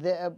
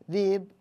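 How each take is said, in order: First: The word has a glottal stop in it. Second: The word has no glottal stop in it. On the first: This is the form used with hamza. "بدل ذئب" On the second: This is the form used by people without hamza. "كانوا يقولون ذيب"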